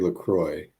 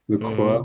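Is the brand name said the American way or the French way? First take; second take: American; French. First: It is pronounced the way most Americans say it. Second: It is pronounced the way French speakers say it. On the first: "most Americans say LaCroix" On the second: "Well, I can"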